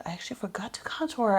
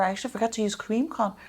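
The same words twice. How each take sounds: First: Fast whispered confession; whispered dismay, quick. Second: Said in the usual way. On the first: Real, not acted. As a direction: rush it out under your breath. Whispered realization of forgotten step.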